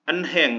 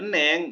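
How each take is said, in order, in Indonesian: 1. Bunyi h di tengah diucapkan dengan jelas. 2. Bunyi h di tengah sama sekali tidak diucapkan. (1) "Kalau yang baru belajar bahasa Korea ... pasti dibacanya enheng" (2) "kalau dibacanya eneng, ini wah ini udah Korea"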